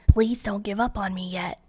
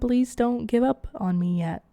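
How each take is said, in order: First: It is said in an imitation of Gregory's voice. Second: It is said in the speaker's own voice.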